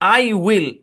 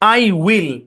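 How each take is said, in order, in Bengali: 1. এটা দুটি আলাদা পূর্ণ শব্দ হিসেবে বলা হয়। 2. এটা দুটি আলাদা পূর্ণ শব্দ হিসেবে বলা হয়।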